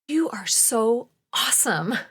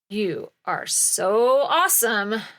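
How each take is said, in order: First: It is said with warm, loving adoration. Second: It is said with sarcasm and disdain.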